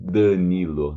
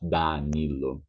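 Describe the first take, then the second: First: Danilo with a nasal first vowel; Danilo, nasalize the a. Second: Danilo with an open a, not nasal; Danilo, the a kept open. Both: Shown as a demonstration. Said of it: "not Danilo".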